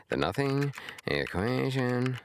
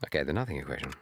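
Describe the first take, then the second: First: Slow, much higher American read of "The nothing equation"; American accent. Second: Said in the usual way. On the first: Shown as a demonstration. Testing the title in a generic American accent. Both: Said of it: "Sounds good in American".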